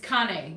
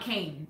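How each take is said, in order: First: It does not sound like walking cane. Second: It sounds like the word walking cane. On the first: The speaker calls it right. "It's Kane" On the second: The speaker calls it wrong. "Kane is, um, you know, a walking cane"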